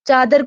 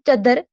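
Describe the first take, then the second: First: The first vowel is long, d is single. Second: The first vowel is short, d is doubled. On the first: This is the standard form. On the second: This is the Khari Boli dialect form.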